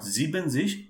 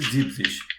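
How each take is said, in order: First: The word is said with three syllables. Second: The word is said with two syllables. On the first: The speaker calls it wrong. "make sure it is not zibenzish" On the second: The speaker calls it right. "when we pronounce seventy, it will be zibzish"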